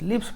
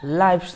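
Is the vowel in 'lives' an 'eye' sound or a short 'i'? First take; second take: short i; eye sound. First: The vowel is a short i. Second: The vowel is an 'eye' sound. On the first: The speaker calls it right. "लिव्स पढ़ाएगा" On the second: The speaker calls it wrong. "लाइफ्स नहीं पढ़ाएगा"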